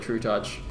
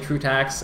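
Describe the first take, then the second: First: The second part sounds like 'touch'. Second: The second part sounds like 'tax'. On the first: The speaker calls it right. "I was told that it's actually True Touch" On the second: The speaker calls it wrong. "I started pronouncing it True Tax"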